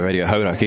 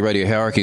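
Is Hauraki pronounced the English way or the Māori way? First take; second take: Māori; English. First: Hauraki is said with a Māori pronunciation. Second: Hauraki is said with an anglicised English pronunciation. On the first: "instead of" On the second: "we still say ... Bastardised"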